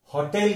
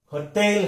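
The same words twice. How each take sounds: First: होटल said the common mistaken way; wrong pronunciation. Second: होटल stressed on the second syllable; weak first vowel in होटल, stress on the end; correct pronunciation. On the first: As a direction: say होटल with a full first vowel, as commonly mispronounced. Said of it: "इसका हम गलत उच्चारण". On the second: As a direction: say होटल as huh-TEL. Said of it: "इसका सही उच्चार". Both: Shown as a demonstration.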